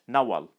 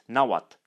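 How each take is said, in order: First: The name ends in a plain l sound. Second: The name ends in a plain t sound. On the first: This is the Western form. "it has come to be pronounced L" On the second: This is the Eastern form. "it has come to be pronounced T"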